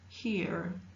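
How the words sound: The vowel is followed by an R sound. "in American English, the R sound exists"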